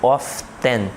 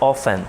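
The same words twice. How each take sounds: First: The T sound is pronounced. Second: The T sound is silent. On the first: The speaker calls it wrong. "Eu não digo often" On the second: The speaker calls it right. "eu não pronuncio o T"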